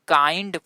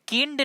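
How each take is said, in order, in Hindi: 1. स्वर एक लंबी 'eye' ध्वनि है। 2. स्वर एक छोटी 'ih' ध्वनि है। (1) "इसको हम काइंड पढ़ेंगे" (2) "ये सब किंड नहीं पढ़ेंगे दोस्तों"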